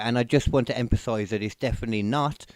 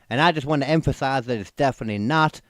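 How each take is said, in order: First: It is read in the speaker's ordinary voice. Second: It is read in a put-on character voice. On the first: The speaker calls it wrong. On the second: The speaker calls it right.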